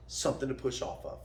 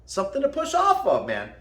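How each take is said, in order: First: Soft aside. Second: Emphatic repeat. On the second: Coach repeating his point to viewers, emphatic. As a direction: drive the repeat home, pitched up. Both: Shown as a demonstration.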